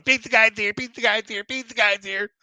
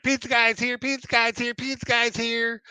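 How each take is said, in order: First: Put-on high, loud little girl chant; excited toddler. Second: Put-on high, sing-song little girl chant; excited toddler. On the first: Wet twin running to the door, high excited chant. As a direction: squeal it like a dripping-wet toddler. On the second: Little girl announcing the pizza guy, high excited chant. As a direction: chirp it like a thrilled two-year-old. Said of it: "She's like".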